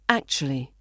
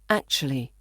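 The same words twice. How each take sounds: First: It is said fast with sounds reduced. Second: The same.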